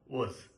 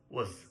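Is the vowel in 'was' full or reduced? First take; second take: reduced; reduced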